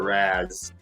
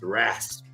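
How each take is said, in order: First: The first syllable ends in a z sound, no p. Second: The first syllable ends with a clear p sound. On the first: The speaker calls it wrong. "instead of raz" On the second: The speaker calls it right. "when I put the P in there"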